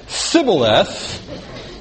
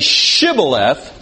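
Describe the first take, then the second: First: The word begins with an 's' sound. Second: The word begins with a 'sh' sound. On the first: The speaker is an Ephraimite outsider. The speaker calls it wrong. "then he knew he was an Ephraimite" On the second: The speaker is a Gileadite who belongs. The speaker calls it right. "then he said it right"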